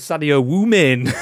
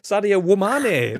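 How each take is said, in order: First: The last word sounds like 'women'. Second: The last word ends rhyming with 'Mane'. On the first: The speaker calls it wrong. "you read it as Sadio Woomin" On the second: The speaker calls it right. "There you go"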